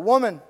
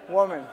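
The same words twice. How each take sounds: First: It is said in a harsh, blunt tone. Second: It is said in a gentle, respectful tone.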